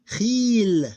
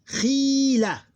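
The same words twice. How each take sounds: First: Khil high, loud and long, closed on L; sukoon ending. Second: Khila high and loud, long "khii" then short "la"; open ending. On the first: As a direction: hold Khil and stop on the bare L. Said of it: "pronounced as that it have sukoon". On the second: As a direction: stretch the first syllable of Khila, then add "la". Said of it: "With a dot". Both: Shown as a demonstration.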